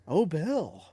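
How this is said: It is said in a swooning, flirty tone.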